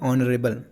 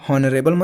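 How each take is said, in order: First: The word begins with a vowel sound. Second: The word begins with an h sound. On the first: The speaker calls it right. "तो आप कहेंगे vowel, मतलब स्वर।" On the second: The speaker calls it wrong. "हॉनरेबल मत पढ़ देना"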